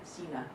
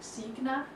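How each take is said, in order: First: The name is pronounced the Danish way. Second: The name is pronounced the German way. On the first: "which is the Danish pronunciation" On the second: "which is pronounced Signa in Germany"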